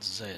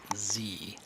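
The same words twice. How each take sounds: First: The letter is said the Canadian way, as zed. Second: The letter is said the American way, as zee.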